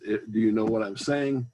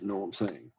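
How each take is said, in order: First: Every word is said fully and clearly. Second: Words are dropped and run together. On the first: The speaker calls it right. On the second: The speaker calls it wrong.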